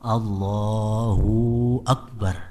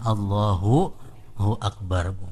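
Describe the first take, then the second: First: The 'hu' syllable is stretched into a long 'u'. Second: The 'hu' syllable is clear and short. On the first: The speaker calls it wrong. "ruhunya kepanjangan" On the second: The speaker calls it right. "Mestinya Allahu hu Akbar"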